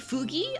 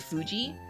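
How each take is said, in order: First: The middle consonant is a hard g sound. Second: The middle consonant is a soft j sound. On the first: "g noises here" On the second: "not j"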